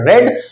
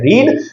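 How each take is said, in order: First: The vowel is short, like in 'red'. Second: The vowel is long, like in 'reed'. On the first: It is the past form of the verb. "Second form है इसकी R E A D जिसको बोला जाता है रेड" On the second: It is the present form of the verb. "First form है इसकी R E A D जिसको बोला जाता है रीड"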